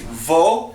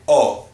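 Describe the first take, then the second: First: The vowel starts with a v sound. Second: The vowel is said alone without v. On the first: The speaker calls it wrong. "we don't say vo" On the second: The speaker calls it right. "we say O"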